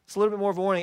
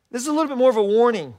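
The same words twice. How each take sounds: First: Said in the usual way. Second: A little faster and louder, a brisk heads-up; quick warning. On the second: Shown as a demonstration. Pastor hurries a warning to the church, quick and louder. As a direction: rush the warning out, a touch louder.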